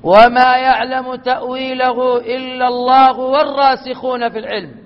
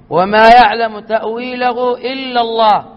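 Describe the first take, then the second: First: It runs on without a pause after 'Allah'. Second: It stops with a pause after 'illa Allah'.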